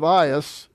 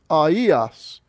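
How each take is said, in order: First: The two vowels blend into one gliding sound. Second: The two vowels are said as separate sounds. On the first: The speaker calls it wrong. "instead of Ias" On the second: The speaker calls it right. "the diaresis means you split them apart. You pronounce them individually"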